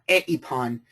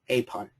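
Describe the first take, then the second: First: The vowels are said as two separate syllables. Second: The vowels glide together as one syllable. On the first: The speaker calls it wrong. "it's not" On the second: The speaker calls it right. "I make this into a diphthong"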